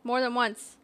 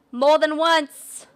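First: Said in the usual way. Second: Louder and slowed right down; slow emphatic shout. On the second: Shown as a demonstration. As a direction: drag it out loudly for emphasis.

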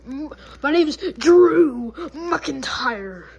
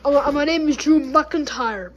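First: Drew McIntyre. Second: Said in the usual way. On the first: Pretend. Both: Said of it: "I don't got an accent".

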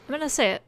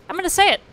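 First: Said in the usual way. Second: Bold announcement. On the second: Real, not acted.

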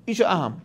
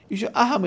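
First: Said in the usual way. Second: اہم said higher and stressed; emphatic repeat. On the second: Shown as a demonstration. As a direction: lift the word اہم up with weight.

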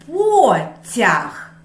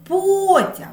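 First: Потяг said in two clear syllables, по-тяг; syllables spelled out slowly; split into syllables. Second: Потяг with a high, loud first syllable ПО; the first syllable of Потяг hit hard; stress on first syllable. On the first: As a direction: break Потяг apart syllable by syllable. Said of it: "Поділимо слова на склади". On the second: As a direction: punch the ПО in Потяг. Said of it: "Який склад вимовляється голосніше?". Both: Shown as a demonstration.

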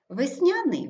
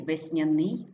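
First: ВесНЯний, high stressed НЯ then fall; stress on second syllable. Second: ВесняНИЙ, rising on stressed ending; stress on last syllable. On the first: Teacher showing double stress, stress on НЯ. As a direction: hit НЯ in весняний. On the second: Teacher showing double stress, stress on НИЙ. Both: Shown as a demonstration. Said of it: "слова із подвійним наголосом".

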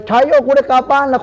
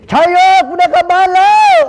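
First: High, loud cry of relief; retold shout of joy. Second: Full joyful shout. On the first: Man retelling to the interviewer how he shouted with joy, loud and high. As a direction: shout it like you just got saved. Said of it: "ผมตะโกนผมตะโกนเลย". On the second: Shown as a demonstration. Host asks him to shout it into the camera, and he yells with full joy. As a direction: belt it out at the camera like you're finally going home. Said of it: "ลองตะโกนใส่กล้องดังๆสักทีดิ".

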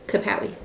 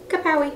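First: Softer, almost under the breath kapow; soft catchphrase. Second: High cheeky pow sound, soft; cartoon exclamation. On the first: Acted. Closing the lesson for the viewer, a hushed kapow. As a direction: murmur it as a private wink. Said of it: "repeat of the catchphrase, hushed". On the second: Cheering the viewer on, a high playful kapow. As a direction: pop it like a comic-book punch. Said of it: "playful victory exclamation".

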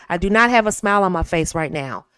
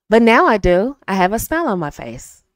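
First: Said in the usual way. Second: A smile heard in the voice; speaking with a smile. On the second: Shown as a demonstration. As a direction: say it smiling.

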